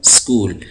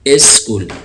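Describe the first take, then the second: First: The word starts directly with the s sound. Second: A short vowel is added before the s. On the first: "बल्कि कहूँ स्कूल" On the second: "यानी इस स्कूल"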